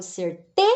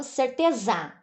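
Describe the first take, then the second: First: "certeza" with TE punched and rising, pause before "za"; "certeza" as cerTÊ... za; correct stress on TE. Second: "certeza" with the stress shifted to the last syllable, ZA; "certeza" run together, landing hard on ZA; wrong final stress. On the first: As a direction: hit the TE in "certeza", then detach "za". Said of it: "Eu falo certeza". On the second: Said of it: "Eu não falo certeza". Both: Shown as a demonstration.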